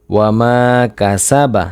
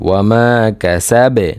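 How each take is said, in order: First: "কাসা বা" with its final a sounded; full final vowel. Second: "কাসাবে" ending on a bounced b; qalqalah stop. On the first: Teacher spelling out the verse before the stop rule, "কাসা বা" voweled. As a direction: say "কাসা বা" ending in an open a. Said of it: "এখানে যদি আমরা ওয়াকফ করি". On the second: Teacher showing the pause rule, "কাসাবে" with qalqalah on b. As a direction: drop the final a of "কাসাবে" and echo the b. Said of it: "কলকলার উচ্চারণ হবে". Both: Shown as a demonstration.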